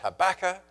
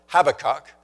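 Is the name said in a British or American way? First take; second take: American; British. First: The name is said the American way. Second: The name is said the British way.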